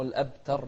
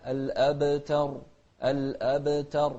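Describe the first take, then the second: First: الأبتر with a flat ب and no echo; الأبتر said without qalqala; الأبتر without the bounce on ب; wrong pronunciation. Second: الأبتر with the ب bounced; الأبتر with a clear qalqala echo on ب; الأبتر with a bouncing ب. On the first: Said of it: "مو الأبتر". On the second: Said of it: "القلقلة". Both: Shown as a demonstration.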